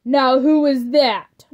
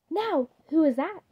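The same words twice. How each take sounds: First: Slow, loud yelled question. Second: Wondering aloud. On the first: Dracula yelling toward the door, slow loud demanding question. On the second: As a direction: ask who's at the door, puzzled. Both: A narrator's reading. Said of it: "Dracula yelled".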